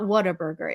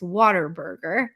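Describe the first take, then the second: First: The first part sounds like 'what a'. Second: The first part sounds like 'water'. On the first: The speaker calls it wrong. "it's not Whataburger" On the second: The speaker calls it right. "If you want to do it as a Texan"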